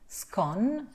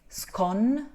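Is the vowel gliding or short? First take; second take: short; short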